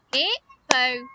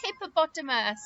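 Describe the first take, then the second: First: "Hippopotamus" chopped into hip-po-pot-a-mus; syllable by syllable. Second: Said in the usual way. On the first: Shown as a demonstration. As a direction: say "Hippopotamus" in five separate beats. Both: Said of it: "hippopotamus had five syllables".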